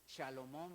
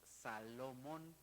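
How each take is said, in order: First: The word begins with an sh sound. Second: The word begins with a plain s sound. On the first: The speaker calls it wrong. "no decimos Shalomón" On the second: The speaker calls it right. "sino que decimos Salomón"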